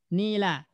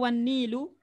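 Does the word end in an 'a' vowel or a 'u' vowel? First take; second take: a; u. First: The word ends with an 'a' vowel. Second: The word ends with a 'u' vowel. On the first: The speaker calls it right. "maka wajib dibaca nasab" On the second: The speaker calls it wrong. "Boleh nggak dibaca"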